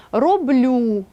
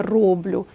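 First: РоблЮ with a long stressed last syllable. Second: РОблю, first syllable stressed, lower; wrong stress on РОБ. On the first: Teacher showing correct verb stress, роблю stressed on ЛЮ. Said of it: "мають наголос на останньому складі". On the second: Teacher citing dialect mistake to avoid, роблю stressed on РОБ. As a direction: hit РО in роблю, leaving ЛЮ short. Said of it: "а не роблю". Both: Shown as a demonstration.

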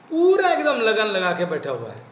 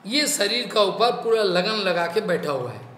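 First: Emphatic, stretched पूरा at the start; stress on पूरा. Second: Said in the usual way. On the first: Shown as a demonstration. Repeats line stressing the first word.

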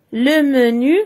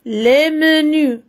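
First: "Le menu" with stress on "Le" and a rising tune; teacher contrasting singular and plural; singular form. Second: "les menus" said slowly with a falling tune; teacher contrasting singular and plural; plural form, slow. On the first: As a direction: say the singular with a rise. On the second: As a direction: draw out the plural and let it fall. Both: Shown as a demonstration. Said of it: "الفرق أننا كنزيدوا واحد ال S".

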